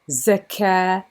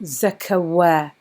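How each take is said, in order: First: The word has no w sound. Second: The word has a w sound. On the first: The speaker calls it right. "So here we have zakah" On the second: The speaker calls it wrong. "not zakawa. We don't say this wow"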